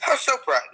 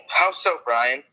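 First: How pitched way up, falling; high questioning. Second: Said in the usual way. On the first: Shown as a demonstration. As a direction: start high on How and fall.

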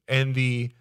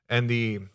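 Both takes have the same delivery.

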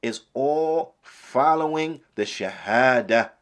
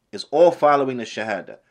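First: Slow emphasis. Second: Said in the usual way. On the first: Shown as a demonstration. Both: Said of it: "is what?".

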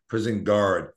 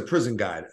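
First: Said in the usual way. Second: "guard" said the Boston way, no r, like "gahd"; r-less Boston "prison guard"; Boston accent. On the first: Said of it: "for other people that don't understand guard". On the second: Shown as a demonstration. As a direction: drop the r in "guard", broad Boston vowel. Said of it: "that's my Boston accent".

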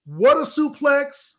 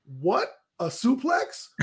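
First: "What a suplex" loud and high, slow; excited announcer. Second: "What a suplex?" slow, rising at the end; questioning. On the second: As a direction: ask "What a suplex?" in doubt. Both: Shown as a demonstration. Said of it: "I wrote that sentence three ways".

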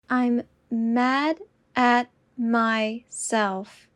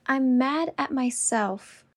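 First: Slow and deliberate. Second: Said in the usual way. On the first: Shown as a demonstration. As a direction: say it slowly and clearly. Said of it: "repetition drill, slowed take". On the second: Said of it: "repetition drill, normal take".

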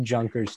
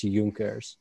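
First: Junkers said with an English J; English J pronunciation. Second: Junkers with J said as Y; German pronunciation. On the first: Admitting an old mistake, Junkers with an English J. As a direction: start Junkers like the word "junk". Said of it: "I used to call it Junkers too". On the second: Correcting an old mistake, Junkers with a German Y sound. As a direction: say Junkers as "Yunkers". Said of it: "Germans say their J's as, uh, Y". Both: Shown as a demonstration.

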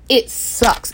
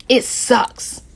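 First: Said in the usual way. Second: Breathy whispered despair; a hushed, worn-out whisper. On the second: Real, not acted. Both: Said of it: "I'm super emotional with this".

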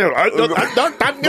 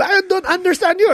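First: Put-on comically mad, garbled accented voice; high, slurred mock outrage in a thick accent; mock mad caller. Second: Very high mom voice with a mock Filipino accent. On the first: Caller getting mad at mom, mock-angry accent. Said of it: "And then he got mad". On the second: Mom telling the caller, mock Filipino accent. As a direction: imitate mom's Filipino accent, high with a rising end. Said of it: "And I go".

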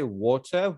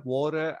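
First: "water" said in one of several accents; one accent version. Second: "water" switched to a second accent, higher pitch; another accent version. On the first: Showing three versions in one sentence, first accent on "water". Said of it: "like, I can say". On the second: Showing accents change within a sentence, second accent on "water". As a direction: demonstrate "water" in a contrasting accent. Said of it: "three different versions in one sentence". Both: Shown as a demonstration.

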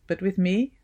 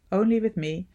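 First: Said in the usual way. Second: "only" lifted and leaned on; stress on only. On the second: A narrator's reading. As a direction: press the word "only" a little higher. Repeated phrase, stress on only.

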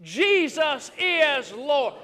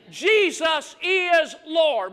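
First: Leading the response. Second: Slow, loud proclaiming; slow shouted creed; preached declaration. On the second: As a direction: stretch it out as a call for the church. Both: Shown as a demonstration. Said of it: "Would you say that with me?".

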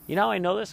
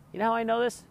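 First: Higher and louder, pushing the question; excited repeat. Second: Pitched up high, eager to tell; excited rhetorical question. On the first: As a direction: say it again with more punch. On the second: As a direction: tease the story with a lift. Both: Real, not acted.

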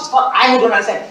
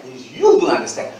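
First: "I" punched with a falling tune; stress on I. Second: "you" punched with a rising tune; stress on YOU. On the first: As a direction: hit the word "I", then let it drop. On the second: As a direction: lean hard on "you" and lift it. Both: Shown as a demonstration.

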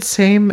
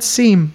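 First: "same" with a long ee vowel like "seem"; "same" said like memes. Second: "seam" said as "seem", long ee. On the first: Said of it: "came out more like the word memes". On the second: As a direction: say "seam" with a clear ee vowel. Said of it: "so I said". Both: Shown as a demonstration.

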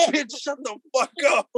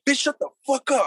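First: Higher, slower mock yell, words stretched out; retold yell. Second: Retold yell. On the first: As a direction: replay the yell drawn out for the laugh. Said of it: "I was just like". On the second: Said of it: "I'm like".

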